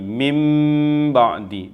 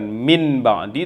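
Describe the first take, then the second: First: The first word ends with an m sound. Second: The first word ends with an n sound. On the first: The speaker calls it right. "tetapi mim ba'di, ditahan juga dua harakat" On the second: The speaker calls it wrong. "bukan min ba'di"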